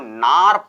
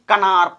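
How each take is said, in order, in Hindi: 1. इस शब्द की शुरुआत n आवाज़ से होती है। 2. इस शब्द की शुरुआत k आवाज़ से होती है। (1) "इसको नार पढ़ेंगे दोस्तों" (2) "ना कि कनार पढ़ेंगे"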